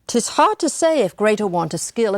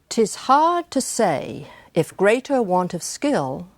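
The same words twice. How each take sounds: First: The line is read quickly, at conversational speed. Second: The line is read slowly, marking each beat. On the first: It is read the way one would normally read the poem. "reading it at the conversational speed, which I will now do" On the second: It shows how the meter and rhythm work together. "That's the speed at which I'm reading it in order to show you how the meter and the rhythm cooperate"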